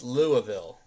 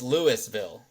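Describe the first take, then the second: First: It is said the way it is in Kentucky. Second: It is said the way locals here say it. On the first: It refers to the city in Kentucky. "in Kentucky it's Louisville" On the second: It refers to the local town. "here it's Louisville"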